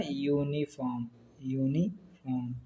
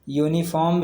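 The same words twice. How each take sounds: First: यूनिफॉर्म slow and soft, opening on a long "yoo"; sound it out. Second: Said in the usual way. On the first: Shown as a demonstration. Teacher showing the class the या sound, यूनिफॉर्म slow and hushed. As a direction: draw out यूनिफॉर्म in parts, quietly. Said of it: "या से ये भी लिखा जा रहा है ना". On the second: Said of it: "यूनिफॉर्म मतलब या से".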